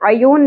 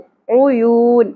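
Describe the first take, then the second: First: The first vowel is an unrounded 'a'. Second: The first vowel is a rounded 'u'. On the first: The speaker calls it wrong. "عیون نہیں پڑھنا" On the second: The speaker calls it right. "آئین کے اوپر پیش ہے"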